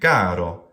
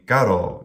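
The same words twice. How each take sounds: First: The first syllable is long, the second short. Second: The first syllable is short, the second long. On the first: The speaker calls it wrong. "reverse it completely into a trochee" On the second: The speaker calls it right. "short, long"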